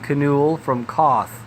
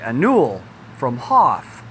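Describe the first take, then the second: First: Both names start with a K sound. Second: Both names start without a K sound. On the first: "pronouncing the K's, it would be" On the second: "Not pronouncing would be"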